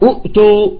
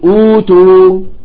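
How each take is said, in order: First: Two glottal stops are pronounced at the start. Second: One glottal stop and a long u vowel begin it. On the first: This is the word's original form. "الأولى مضمومة" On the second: This is how the word is actually read. "فيقولوا أوتوا"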